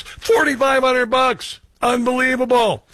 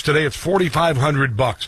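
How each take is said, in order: First: High, slow, incredulous "Forty-five hundred bucks"; astonished. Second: Said in the usual way. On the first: Real, not acted. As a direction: spell out the price in disbelief.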